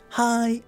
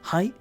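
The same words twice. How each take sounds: First: The word is stretched out long. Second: The word is said short and quick.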